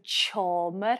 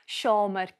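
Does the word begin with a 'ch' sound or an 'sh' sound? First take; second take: ch; sh. First: The word begins with a 'ch' sound. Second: The word begins with an 'sh' sound. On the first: "we add a T sound, so sh becomes ch" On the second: "so sh becomes ch"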